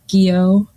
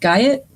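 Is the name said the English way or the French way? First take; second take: French way; English way. First: The name is said the French way, like 'gee-oh'. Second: The name is said the English way, like 'guy-ot'.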